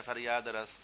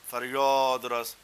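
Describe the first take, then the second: First: فریاد رس said short with a flat a, Punjabi style; our way of saying it. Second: فریاد رس stretched slowly and loudly, a rounded toward o as فریود; فریاد رس in a slow, loud Persian accent; Persian pronunciation. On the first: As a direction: say فریاد رس quickly with an open a, the local way. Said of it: "ہم کیا بولتے ہیں؟". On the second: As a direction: drawl فریاد رس with a long rounded o. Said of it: "وہ ایسے بولتے ہیں". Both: Shown as a demonstration.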